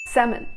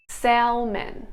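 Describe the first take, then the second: First: Said in the usual way. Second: "salmon" with the L sounded, "sal-men"; singlish. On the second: Shown as a demonstration. Singlish take of the word.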